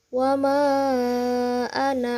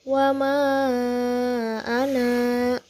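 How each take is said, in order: First: The final vowel of ana is short, running on. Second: The final vowel of ana is long, then stops. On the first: The reading continues without stopping. "Itu ketika wasol" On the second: The reading stops at this word. "kalau berhenti itu anak, dibacanya naknya dua harokat"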